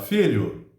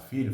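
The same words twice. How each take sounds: First: The word is said with a raised voice. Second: The word is said at an ordinary volume.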